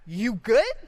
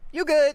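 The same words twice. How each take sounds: First: It sounds challenging and confrontational. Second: It sounds casual and dismissive. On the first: The listener is being challenged to fight. "Would you like to fight me?" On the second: There is nothing to worry about. "It's fine. Don't worry about it"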